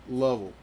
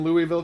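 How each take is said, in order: First: The name is squeezed into a short, swallowed form. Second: The name is said with all its syllables.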